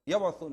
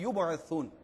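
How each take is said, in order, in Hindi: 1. पहले अक्षर में स्वर 'a' है। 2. पहले अक्षर में स्वर 'u' है। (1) "यबअसून नहीं है" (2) "मैं वापस पढ़ दूं"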